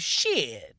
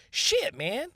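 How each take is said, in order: First: Said in the usual way. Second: "Shit, man" in a much higher squeaky put-on voice; high falsetto "Shit, man". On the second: Shown as a demonstration. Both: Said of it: "you can say it a lot of different ways".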